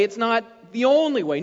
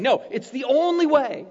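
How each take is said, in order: First: Lightly voiced doubter saying "only" with a shrug; mock objection. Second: "only" hit firm and loud; stress on ONLY. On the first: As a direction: play the skeptic who waves off "only". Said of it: "Well, it's my way". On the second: Real, not acted. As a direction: press down hard on "only".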